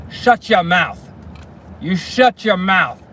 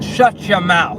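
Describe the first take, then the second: First: Mock angry snap. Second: Retold angry command. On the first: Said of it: "he points right at her". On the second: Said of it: "pointed at that girl ... and said".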